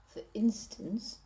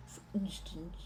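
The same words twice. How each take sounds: First: Said in the usual way. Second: "for instance" softly, with a motionless mouth; without moving the face. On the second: Shown as a demonstration. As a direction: say "for instance" softer, barely articulating. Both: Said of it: "also not moving the face".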